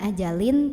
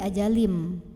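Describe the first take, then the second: First: The word ends with a clear n sound. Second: The word ends with a nasal m sound. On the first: The speaker calls it wrong. "bukan ajalin" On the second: The speaker calls it right. "tapi ajalim"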